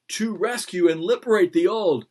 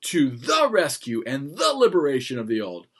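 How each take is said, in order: First: High, loud, mocking weak ending "liberate"; weak verb ending. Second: Louder, weighty stress on "liberation"; strong noun ending. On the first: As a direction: make "liberate the old" sound limp and silly. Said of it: "that's not very powerful". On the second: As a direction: land "the liberation of the old" with a thump. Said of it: "You hear the difference?". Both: Shown as a demonstration.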